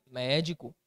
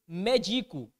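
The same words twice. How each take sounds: First: Médico said MÉ-di-co with the stress on the first syllable. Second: Medico said me-DI-co with the stress on di, like the verb medicar. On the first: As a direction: put the accent on the mé of Médico. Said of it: "Se eu coloco o acento na proparoxítona". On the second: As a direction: read medico as the verb form, weight on di. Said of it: "Existe a palavra medico, tal qual está aí?". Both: Shown as a demonstration.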